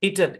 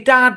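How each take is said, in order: First: The second vowel is a light reduced 'e'. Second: The second vowel is a full open 'a'. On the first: The speaker calls it right. "হালকা ইটেড, ইটেড, এটা হচ্ছে original উচ্চারণ" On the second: The speaker calls it wrong. "পুরাপুরি দিলে ইটাড হয়ে যাবে"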